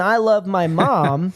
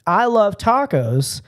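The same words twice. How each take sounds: First: "I" lifted with a rising tune; slow "I love my mom", rising on "I"; stress on I. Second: "love" drawn out slowly and high; stress on love. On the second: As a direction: lean on "love" in "I love tacos". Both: Shown as a demonstration. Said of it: "you can say in English".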